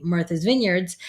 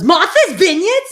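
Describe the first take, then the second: First: Said in the usual way. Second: Loud, high mock Massachusetts question; strong Massachusetts accent. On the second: Host imitating sister-in-law's friend, incredulous Massachusetts accent. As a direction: exclaim it in a thick Massachusetts accent. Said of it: "the way she said it".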